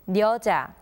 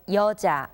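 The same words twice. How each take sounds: First: The word begins with an n sound. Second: The word begins directly with a vowel. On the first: This is the original form of the word. "its original form is" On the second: This is how the word is actually read. "turned into it 이응, to be read as"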